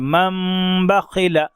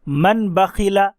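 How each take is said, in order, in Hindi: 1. 'bakhila' से पहले की नासिका ध्वनि नासिकीकृत m बन जाती है। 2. 'bakhila' से पहले की नासिका ध्वनि सादा n है। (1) "मन नहीं पढ़ेंगे बल्कि मम बखिला पढ़ेंगे" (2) "ये नहीं हुआ"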